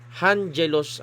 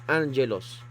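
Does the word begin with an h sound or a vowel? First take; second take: h sound; vowel. First: The word begins with an audible h sound. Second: The word begins directly with a vowel. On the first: "kapag etong breathing mark ay rough breathing mark ... Hangelos ang basa mo" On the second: "Pero since smooth siya"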